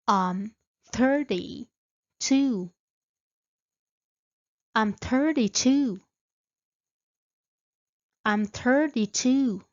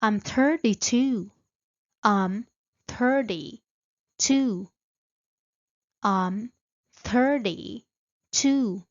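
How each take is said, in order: Both takes have the same delivery.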